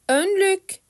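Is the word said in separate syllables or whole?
whole. It is said smoothly as one word. "sonra hecelemeden"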